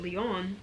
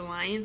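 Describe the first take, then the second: First: The name sounds like the name Leon. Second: The name sounds like the word lion. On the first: This is how the designer's video says the name. The speaker calls it right. "she said Leon. I think I'm pronouncing it right" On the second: This is how the name was first assumed to sound. The speaker calls it wrong. "I know Kahila and I thought it was the lion sweater"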